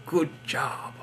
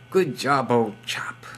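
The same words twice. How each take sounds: First: Mock British accent. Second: Whispered mock British accent. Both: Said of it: "Why am I speaking in crazy accents?".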